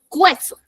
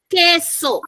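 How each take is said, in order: First: A 'u' sound is heard after the first consonant. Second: No 'u' sound is heard after the first consonant. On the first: The speaker calls it wrong. "si lo pronunciáramos no diríamos queso, diríamos cueso" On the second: The speaker calls it right. "decimos queso"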